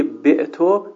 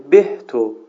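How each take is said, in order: First: Said in the usual way. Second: بهتو with an h sound in place of ayn; deliberately wrong h in the middle of بهتو; mispronounced consonant. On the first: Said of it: "به جای بعتو بگه". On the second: Shown as a demonstration. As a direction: say بهتو with a clearly breathed h mid-word. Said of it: "عین الفعلش حرف ها قرار بده".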